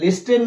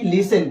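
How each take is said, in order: First: The t sound is pronounced in the middle. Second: The t sound is left out entirely. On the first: The speaker calls it wrong. "लिस्टन नहीं" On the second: The speaker calls it right. "टी E N में से टी क्या हो जाएगा? Silent"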